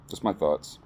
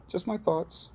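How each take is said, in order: First: Said in the usual way. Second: Squeaky high sign-off, tossed off lightly; high playful voice. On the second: Pretend. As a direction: say it high and teasing, like a cartoon.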